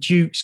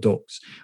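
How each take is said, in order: First: The vowel is a long 'oo' sound. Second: The vowel is a short 'uh' sound. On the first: The speaker calls it wrong. "We called it Dukes because it was D-U-X" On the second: The speaker calls it right. "Ducks is pronounced like the animal ducks"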